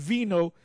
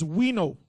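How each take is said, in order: First: The word starts with a V sound. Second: The word starts with a W sound. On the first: The speaker calls it wrong. "It wasn't vino" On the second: The speaker calls it right. "It was it's wino"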